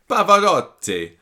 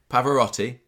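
First: It is said in a put-on Italian accent. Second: It is said in the speaker's normal accent.

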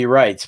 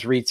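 First: The name is said with a German pronunciation. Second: The name is said with an English pronunciation. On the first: This is how a German speaker would say it. "If it was German, it'd be Reitz" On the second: This is how the man himself says it. "but I think he says Reitz anyway"

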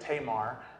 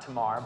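First: The name is said the Southern way. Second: The name is said the non-Southern way. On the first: "I'm from the South, so I say Tamar" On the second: "not Tamar, but either way works"

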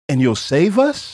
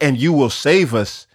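First: The voice rises at the end like a question. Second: The voice falls at the end like a statement. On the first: He is unsure and only hopes God will save them. "It's like, ... has the intonation of a question" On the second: He is confident God will save them. "the intonation in his voice is not like"

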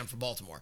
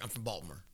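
First: Baltimore is said in full, all syllables clear. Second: Baltimore is squashed into Balmer, local style.

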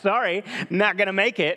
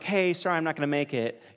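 First: It sounds curt and rude. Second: It sounds casual and friendly.

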